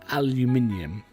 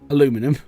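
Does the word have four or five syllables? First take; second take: five; four. First: It is said with five syllables. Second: It is said with four syllables. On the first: This is the proper form. "For pronunciation properly" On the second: This is the American form, handy for a song. "For song purposes, / an American can say aluminum"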